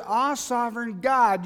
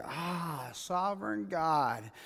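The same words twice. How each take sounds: First: Raised, louder retold cry to God; imitated cry of recognition. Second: Slow, soft sigh to God; hushed, drawn-out imitation of surrender; quiet realization. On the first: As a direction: call it out higher and louder, as if quoting awe. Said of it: "he cries out in a verse". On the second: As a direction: let it out slowly and softly, as if it finally sinks in. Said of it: "after it's all said and say".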